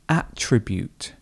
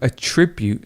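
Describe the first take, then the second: First: The stress is on the first syllable. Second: The stress is on the second syllable. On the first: It is used as a noun. "if it's the noun form, let's put it at the top" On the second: It is used as a verb. "The verb, to attribute something, and the stress goes here in the middle"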